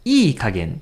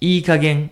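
First: The stress falls on ii. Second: The stress falls on kagen.

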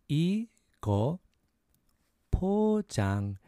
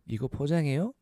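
First: It is said at a slower pace. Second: It is said at a faster pace.

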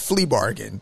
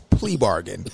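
First: The first word starts with an F sound. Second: The first word starts with a P sound. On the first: The speaker calls it wrong. "Not flea bargain" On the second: The speaker calls it right. "it's plea bargain"

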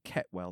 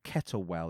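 First: The name is said with the middle syllable dropped. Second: The name is said with all three syllables. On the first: "it's like Kettwell. They sort of pronounce it really weirdly" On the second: "Not Kettlewell"

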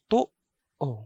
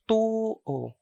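First: The first vowel is cut by a glottal catch. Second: The first vowel is long, with no catch. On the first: It means the right side. "the first vowel has a glottal catch, so it is stopped" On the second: It means to believe. "the first vowel is a long vowel followed by a normal u vowel sound"

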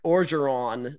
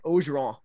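First: The name is said in an English way. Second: The name is said in a French way. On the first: This is how outsiders say it. "they're like Orgeron, very, you know, almost very Englishized" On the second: This is how the locals say it. "we're like Orgeron"

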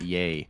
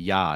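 First: The syllable is said with an 'ay' vowel. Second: The syllable is said with an open 'ah' vowel. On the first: The speaker calls it wrong. "Yay is a short A" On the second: The speaker calls it right. "Ya is a long A"

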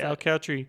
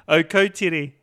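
First: It is said with an anglicized pronunciation. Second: It is said with a Māori pronunciation. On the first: The speaker calls it wrong. "that's how these people pronounce it" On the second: The speaker calls it right. "Oh, you mean Okotiri"

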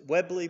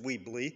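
First: The first syllable has a short 'e' vowel. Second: The first syllable has a long 'ee' vowel. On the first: The speaker calls it wrong. "Some people have pronounced it Webley" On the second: The speaker calls it right. "I think it may be pronounced Weebly"

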